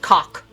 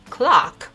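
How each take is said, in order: First: The word is said without its L sound. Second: The word is said with its L sound. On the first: The speaker calls it wrong. "the L sound completely missing" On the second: The speaker calls it right. "He actually meant clock"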